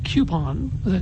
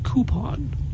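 First: It starts with a y glide after the k. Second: It starts with k and no y glide. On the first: This is how the speaker naturally says it. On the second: This is said to please the audience.

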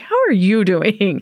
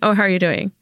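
First: It is said with exaggerated enthusiasm. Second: It is said in a casual, routine way.

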